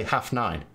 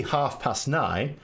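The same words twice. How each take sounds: First: Half nine, past left out; half nine, short form with no past; half nine without past. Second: Half past nine said slowly, every word clear; half past nine, the past fully spoken; full half past nine. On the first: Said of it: "If I don't put the past in". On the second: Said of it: "I'll say half past nine". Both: Shown as a demonstration.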